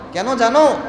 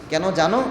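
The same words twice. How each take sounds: First: "কেন জানো" pitched up and louder; emphatic repeat. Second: Said in the usual way. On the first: Retold or imitated. Preacher demands whether Omar knows why, "কেন জানো" raised emphatically. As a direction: press the question "কেন জানো" higher and harder.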